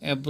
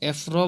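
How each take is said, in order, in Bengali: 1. স্বরধ্বনির পরে v ধ্বনি আছে। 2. স্বরধ্বনির পরে f ধ্বনি আছে। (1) "এব্র হবে" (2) "এখানে আপনি এফ র বলতে পারবেন না"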